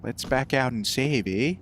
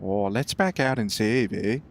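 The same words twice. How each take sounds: First: Lowered, softer stab at a Canadian accent; a self-doubting try at Canadian. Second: A lower, softer retry at a Canadian accent; Canadian accent slipping into cartoon Canadian; a hint of South Park Canadian; Canadian accent, second try. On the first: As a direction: attempt a Canadian "eh" at the end. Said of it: "I can't do a Canadian accent". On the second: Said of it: "It went a bit, like, weird there". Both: Shown as a demonstration.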